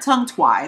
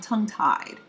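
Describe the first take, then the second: First: The word 'tied' has a w sound after t. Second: The word 'tied' has no w sound after t. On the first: The speaker calls it wrong. "I'm not tongue-twied" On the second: The speaker calls it right. "I'm tongue-tied"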